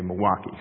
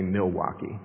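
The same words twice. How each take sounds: First: The L sound is left out. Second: The L sound is clearly pronounced. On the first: The speaker is a local. The speaker calls it right. "so you say Milwaukee to leave the L out" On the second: The speaker is from out of town. The speaker calls it wrong. "You don't say Milwaukee, because if you say Milwaukee, they'll know you're out of town"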